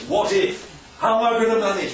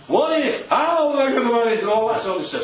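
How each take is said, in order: First: Said in the usual way. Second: A hint of an anxious person fretting about the future; mock worrier. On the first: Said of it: "Life's worries". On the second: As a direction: voice the panicky worrier, mildly hammed-up. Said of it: "So that's life's worries".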